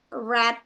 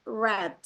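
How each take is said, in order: First: The vowel is a short 'e' sound. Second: The same.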